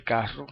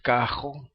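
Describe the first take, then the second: First: "carro" with a rolled rr; tongue-tip trill inside "carro"; standard trilled R. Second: "cajo", carro with a rasped j for rr; throaty R inside "cajo"; Puerto Rican R. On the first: Teacher contrasting with the dialect form, trilled R. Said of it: "en vez de carro". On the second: Teacher recalling a Puerto Rican trait, velar R. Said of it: "decir cajo en vez de carro". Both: Shown as a demonstration.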